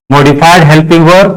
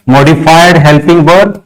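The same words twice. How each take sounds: The two takes are said the same way.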